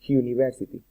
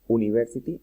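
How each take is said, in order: First: The word begins with a 'y' sound. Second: The word begins with a plain vowel sound. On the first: The speaker calls it right. "se pronuncia ... university, como si fuera una J" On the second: The speaker calls it wrong. "no se pronuncia ... university"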